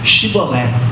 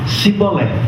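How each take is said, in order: First: The word begins with an 'sh' sound. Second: The word begins with a plain 's' sound. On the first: The speaker belongs to the group. The speaker calls it right. "dize Shibolé" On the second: The speaker is an outsider from another people. The speaker calls it wrong. "não podendo pronunciar corretamente"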